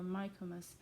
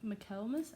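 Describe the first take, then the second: First: "Michaelmas" said as MIKE-muss; first-try pronunciation. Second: "Michaelmas" as muh-KELL-muss, rising like a question; doubtful pronunciation. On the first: Reader meeting an unknown name, "Michaelmas" as MIKE-muss. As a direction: stress the first syllable of "Michaelmas", long i. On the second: Reader doubting a name, "Michaelmas" questioned as muh-KELL-muss. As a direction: stress the middle syllable of "Michaelmas", unsure. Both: Shown as a demonstration. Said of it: "I don't know how to say his name".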